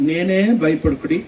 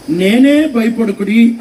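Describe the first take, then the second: First: Jesus reassuring. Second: Raised, higher, drawn-out call; Jesus calling out. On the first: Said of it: "అని అన్నాడు". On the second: Jesus to disciples screaming in the boat, calling out. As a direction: call out slowly over distance to frightened men. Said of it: "అప్పుడు యేసుప్రభు ఏమన్నాడంటే". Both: Acted.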